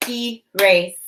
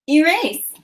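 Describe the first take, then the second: First: "Erase" split as e, pause, rase; two separate beats in "Erase"; chopped syllables. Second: Said in the usual way. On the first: Shown as a demonstration. Teacher chops "Erase" for pupils to blend, syllable by syllable. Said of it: "I'm gonna chop the syllables in each word". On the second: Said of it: "you're gonna say what our word is".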